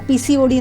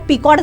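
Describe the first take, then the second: First: It is said as four separate letters. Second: It is squeezed into one two-syllable word.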